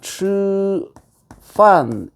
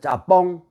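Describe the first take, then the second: First: It is said in standard Beijing Mandarin. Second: It is said the Cantonese way, like jjappong. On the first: "이 북경말 표준말인데" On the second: "그 홍콩 사람들은 뭐라고 부르냐면 짜뽕이라 그래"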